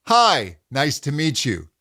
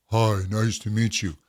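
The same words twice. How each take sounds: First: Resonant optimal pitch. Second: Lower, dull greeting. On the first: Coach contrasts with a resonant greeting. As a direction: lift the hi up bright. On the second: Coach repeats the dull low greeting. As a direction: let it sag low. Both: Shown as a demonstration. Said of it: "Really feel that difference".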